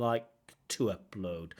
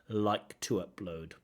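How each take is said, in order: Both takes have the same delivery.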